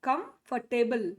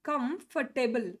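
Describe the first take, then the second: Both takes have the same delivery.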